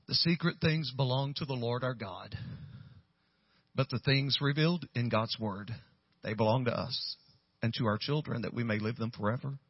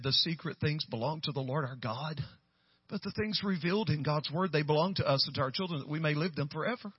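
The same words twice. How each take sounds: First: Measured reading with pauses between phrases; scripture reading. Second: Lightly imitated reader, lifting at phrase ends; retold rereading. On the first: Retold or imitated. Pastor reading the note's verse to Michelle, measured scripture reading. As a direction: read the verse out evenly, settling lower. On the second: Michelle reading the verse again, lightly voiced rising read. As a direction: run the verse on with rising, tentative endings.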